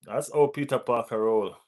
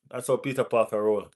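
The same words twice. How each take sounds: The two takes are said the same way.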